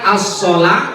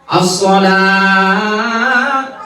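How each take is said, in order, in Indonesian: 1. Vokal panjang itu ditahan dua ketukan. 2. Vokal panjang itu ditahan lima ketukan. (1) "lanya panjang dua ketukan" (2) "Lima ketukan"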